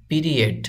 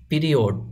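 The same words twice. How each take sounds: First: পিরিয়ড as pi-ri-ET; পিরিয়ড ending in -et, not -od; correct pronunciation. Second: পিরিয়ড as pi-ri-OD; everyday পিরিয়ড ending in -od; common mispronunciation. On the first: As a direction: say পিরিয়ড with a short e in the last syllable. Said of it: "এটার সঠিক উচ্চারণ হলো". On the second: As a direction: say পিরিয়ড with an o in the last syllable. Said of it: "আমরা অনেকে এভাবে বলি". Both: Shown as a demonstration.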